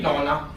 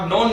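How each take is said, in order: First: नॉना ending in an open "naa"; added final A. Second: Said in the usual way. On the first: Shown as a demonstration. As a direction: sound the last vowel of नॉना, non-aa. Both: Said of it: "नॉन नहीं".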